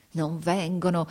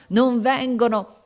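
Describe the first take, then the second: First: "Non vengono" held in, at normal pitch; through the teeth. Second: "non vengono" high, loud and slow; desperate cry. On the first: Captain awaiting help, "Non vengono" held in through the teeth. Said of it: "con voce smozzicata fra i denti". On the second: Captain losing hope of help, "non vengono" cried desperately. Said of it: "gridava con voce smozzicata". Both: A narrator's reading.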